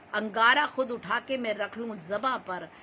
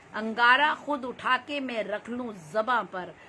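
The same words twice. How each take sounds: The two takes are said the same way.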